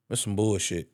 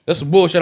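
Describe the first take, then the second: First: Low, soft, fed-up grumble under the breath; muttered disgust. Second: Louder, higher, indignant repeat; louder disgust. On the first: Wrestling fan to his wife, quietly disgusted. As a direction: mutter it to yourself, let down. Retelling disappointment Roman passed by. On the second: Wrestling fan to his wife, louder and indignant. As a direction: say it again, now out loud and annoyed. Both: Retold or imitated.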